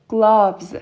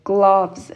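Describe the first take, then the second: No difference in how they are said.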